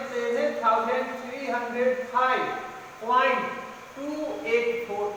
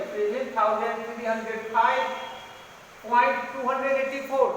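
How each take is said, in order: First: After point each digit separately, "टू", "eight four" with pauses; right way: "point", pause, "टू", pause, "eight four" digit by digit; correct reading. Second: Decimal digits read as one number, "two hundred eighty four" after point; wrong way: "point two hundred eighty four" as a whole number. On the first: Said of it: "इसको क्या पढ़ेंगे?". (पॉइंट के बाद "टू", "eight", "four" अलग-अलग अंक पढ़ना) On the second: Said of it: "इसको ऐसा नहीं पढ़ेंगे". (दशमलव के बाद "टू हंड्रेड एटी फ़ोर" पूरी संख्या की तरह पढ़ना) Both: Shown as a demonstration.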